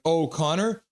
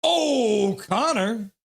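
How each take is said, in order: First: Said in the usual way. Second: Long, high, loud "oh" falling into "Connor"; playful drawn-out holler; acted fan cheer. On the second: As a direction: belt the name out like a stadium fan. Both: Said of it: "Benny Song's like".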